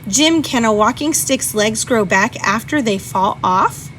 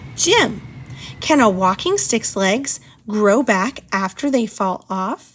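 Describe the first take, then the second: First: The first word runs straight into the rest. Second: A pause separates the first word from the rest. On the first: The question is about whether Jim can do it. The speaker calls it wrong. "my struggle of reading the top one" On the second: Jim is being spoken to and asked a question. The speaker calls it right. "the bottom one is the correct answer"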